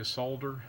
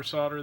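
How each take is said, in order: First: "solder" with the L sounded; British pronunciation. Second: Said in the usual way. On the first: Shown as a demonstration. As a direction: say "solder" the British way, like SOLE-der. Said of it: "or as our British friends say".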